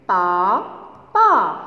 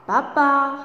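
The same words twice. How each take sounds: First: "Papa" split into pa, pause, pa; syllable by syllable. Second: Said in the usual way. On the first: Shown as a demonstration. Teacher leading pupils in reading words, syllable by syllable. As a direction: sound out "Papa" as two separate syllables, pa... pa. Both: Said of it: "on va lire ensemble des mots".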